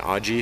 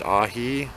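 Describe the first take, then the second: First: The middle consonant is a hard J sound. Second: The middle consonant is a soft H sound. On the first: The speaker calls it wrong. "I've been pronouncing it aji" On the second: The speaker calls it right. "it's pronounced ahi"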